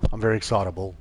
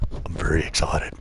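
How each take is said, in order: First: Said in the usual way. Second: Low mock-excited voice; deadpan fake excitement, low; silly clown. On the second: Deadpan joke after "so exciting.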